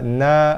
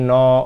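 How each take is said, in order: First: The vowel is thin and open, like 'a'. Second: The vowel is rounded and thick, like 'o'. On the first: The speaker calls it right. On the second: The speaker calls it wrong. "bukannya no, oh, tak mau"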